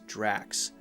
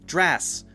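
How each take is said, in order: First: The word ends with a K then S sound. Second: The word ends with a plain S sound. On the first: The speaker calls it right. "you have to have the K sound" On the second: The speaker calls it wrong. "just an S sound. It's not correct"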